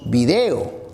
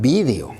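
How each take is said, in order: First: It uses the Peruvian stress placement. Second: It uses the Spanish stress placement. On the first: "Nosotros decimos" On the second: "los españoles dicen"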